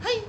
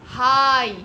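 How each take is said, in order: First: हाई cut short in one quick burst; short abrupt I. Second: हाई loud and drawn out, "haaai"; long I sound. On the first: Teacher mimicking how not to say it, short quick हाई. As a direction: toss off हाई without holding the vowel. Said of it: "ऐसे नहीं बोलते हम लोग". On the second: Teacher showing the proper long sound, loud stretched हाई. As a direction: hold the vowel in हाई fully. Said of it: "आई का sound is long". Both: Shown as a demonstration.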